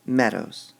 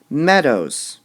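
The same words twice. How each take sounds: First: Said in the usual way. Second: "Meadows" loud, falling from high; stress on meadows. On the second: Shown as a demonstration. Teacher marks stress in the word for class. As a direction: hit the first syllable of "Meadows". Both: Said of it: "The is a weak word".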